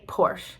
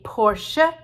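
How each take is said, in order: First: The final vowel is silent. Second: The final vowel is sounded. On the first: "here we just say Porsche" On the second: "in German because they pronounce the final E's"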